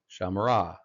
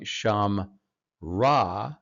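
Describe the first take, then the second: First: A short vowel sounds between the m and r. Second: The m runs straight into r with no vowel. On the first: The speaker calls it right. "In this case, it's vocal" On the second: The speaker calls it wrong. "rather than saying sham ra"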